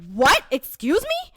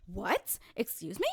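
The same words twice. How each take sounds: First: Loud, high, indignant outburst; zero to a hundred. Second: Understated, offended questioning; restrained disbelief. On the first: Speaker told she doesn't know, instantly indignant. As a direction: explode in instant disbelief. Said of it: "zero to a hundred real quick". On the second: Speaker told to calm down, restrained disbelief. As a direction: query it coolly, holding back. Retells the same reaction, subdued. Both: Acted.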